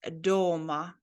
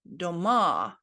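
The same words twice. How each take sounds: First: The stress is on the first syllable. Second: The stress is on the last syllable. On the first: At home. "it has the emphasis on letter O" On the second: Houses. "if you put the emphasis on the last syllable on letter A"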